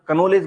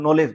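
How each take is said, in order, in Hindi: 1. शुरू का k उच्चारित होता है। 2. शुरू का k मौन रहता है। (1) "कनोलेज बोलना चाहिए था" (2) "हम नॉलेज बोलते हैं"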